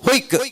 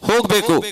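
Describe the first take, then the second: First: The word is cut short in local dialect. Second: The word is said in full standard form.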